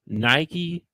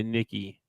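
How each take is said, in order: First: "Nike" said like the shoe brand; spelling pronunciation. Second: "Nikki" with a short first vowel, like "Nick-ee"; guessed pronunciation. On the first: Host butchering an unfamiliar first name, "Nike" as the shoe brand. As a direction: read "Nike" as spelled, rhyming with "Mikey". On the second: Host guessing the name's real sound, "Nikki" as Nick-ee. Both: Shown as a demonstration. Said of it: "they don't pronounce it that way".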